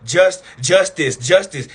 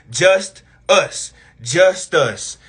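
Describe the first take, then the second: First: "justice" run together with a short i in the second syllable; "justice" closed up, ending in -tis rather than "us"; joined-up word. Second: "Just us" as two slow, separate words; "Just... us", each word stretched out on its own; slowed-down split word. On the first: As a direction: say "justice" as one word, after a halting "Just". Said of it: "They had to put a little I in there". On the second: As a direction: pull "Just us" apart, a clear beat before "us". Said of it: "Say justice real slow". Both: Shown as a demonstration.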